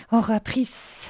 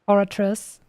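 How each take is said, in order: First: Oratrice said the French way, oh-rah-treess with a throaty r. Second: Oratrice with English sounds, or-uh-truss; English-style Oratrice. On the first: Streamer contrasts with the French original: Oratrice with a French r. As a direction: give Oratrice its French sound, uvular r. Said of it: "not with French accent". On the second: Streamer repeats the English take: Oratrice as or-uh-truss. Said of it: "Let me try and pronounce this in an English accent". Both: Shown as a demonstration.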